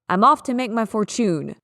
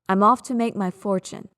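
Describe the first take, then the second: First: Fortune is stressed on its second syllable. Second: Fortune is stressed on its first syllable. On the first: The speaker calls it wrong. "What if I emphasize the second one?" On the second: The speaker calls it right. "Emphasis on the first syllable"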